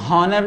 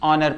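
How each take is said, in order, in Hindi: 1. यह शब्द एक सुनाई देने वाली h ध्वनि से शुरू होता है। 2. यह शब्द सीधे एक स्वर ध्वनि से शुरू होता है। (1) "इसको हम हॉनर नहीं" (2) "ऑनर पढ़ेंगे"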